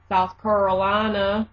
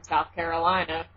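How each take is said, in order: First: Mock Southern pronunciation of "Carolina"; Southern accent. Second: Said in the usual way. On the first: Shown as a demonstration. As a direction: repeat it as a Southerner would.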